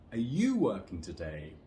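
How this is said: The word 'you' is full and stressed. The question points specifically at the other person. "I stress the word you and I use the full form"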